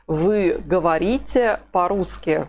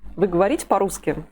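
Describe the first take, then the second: First: The phrase is spoken slowly and fully. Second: The phrase is spoken quickly with reduced vowels. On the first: "said slowly" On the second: "If it's pronounced quickly"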